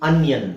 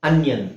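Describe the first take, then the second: No difference in how they are said.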